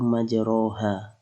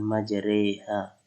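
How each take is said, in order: First: The vowel after the r is an open a. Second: The vowel after the r leans toward e. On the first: This is how the word is written. "secara penulisan itu majroha" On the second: This is how the word must be recited. "harus dibaca dengan majreha"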